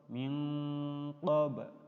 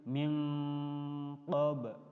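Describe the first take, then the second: No difference in how they are said.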